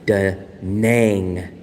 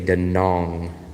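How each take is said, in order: First: The last vowel sounds like in 'bang'. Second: The last vowel sounds like in 'long'. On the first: Locals do not say it this way. The speaker calls it wrong. "they do not say Da Nang" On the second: Locals say it this way. The speaker calls it right. "They say Da Nong"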